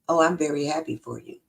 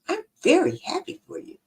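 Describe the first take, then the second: First: It sounds insincere, as if not really happy. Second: It sounds genuine, as if truly happy.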